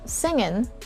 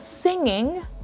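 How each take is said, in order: First: The word ends with a plain n sound. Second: The word ends with a full ng sound. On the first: "you might just hear them saying singin'" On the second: "instead of saying singing"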